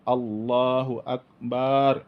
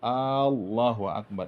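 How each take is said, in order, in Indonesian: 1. Suku kata terakhir pada Akbar dipanjangkan. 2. Vokal pertama pada Allah dipanjangkan. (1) "tidak boleh dipanjangkan banyak" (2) "Kalau dipanjangkan alif Allah itu, maka menambah tanda istibham"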